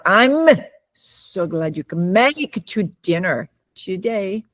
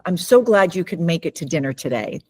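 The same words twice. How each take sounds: First: The stress falls on unexpected words. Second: The words carry natural stress on the key words. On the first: The words are read phonetically without understanding. The speaker calls it wrong. "it would come out" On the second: The speaker understands the sentence. The speaker calls it right. "Like if I were to say"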